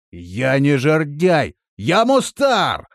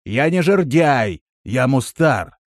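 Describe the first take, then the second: First: Slow, loud, high shout; shouted correction. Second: Said by rote, a little emphatic; habitual correction. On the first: Companion correcting his name down the well, shouted. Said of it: "крикнул в колодец". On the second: Traveller correcting Vardan about his name, habitual firm correction. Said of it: "привычно произнёс". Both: A narrator's reading.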